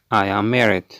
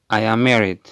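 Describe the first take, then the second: No difference in how they are said.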